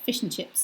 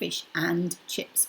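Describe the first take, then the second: First: The word 'and' is reduced to a short sound. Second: The word 'and' is pronounced fully. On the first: "is what we say" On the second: "it's obviously fish and chips"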